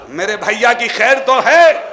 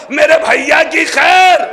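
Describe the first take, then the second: First: Said in the usual way. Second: Slow, high, loud cry for her brother; anxious cry. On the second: Acted. Zainab cries out to Fizza, slow anxious wail. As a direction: call out in dread, drawn out.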